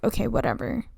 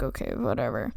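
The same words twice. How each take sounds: First: Breezy, careless okay whatever; dismissive okay whatever. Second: "Okay, whatever" mumbled much lower and softer; muttered okay whatever. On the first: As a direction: Countess shrugging off the marriage news, airily dismissive. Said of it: "but she's kinda like". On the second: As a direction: Countess only half-saying it, a low mutter. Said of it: "Not actually, but she's kinda like". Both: Retold or imitated.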